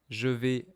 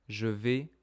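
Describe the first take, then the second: No difference in how they are said.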